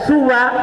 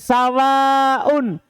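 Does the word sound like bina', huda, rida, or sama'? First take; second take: huda; sama'. First: Short u vowel first, short open ending. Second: Short a vowel first, long ending with glottal. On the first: "dibaca suwa ka huda, seperti kata huda" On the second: "sawaun seperti samain"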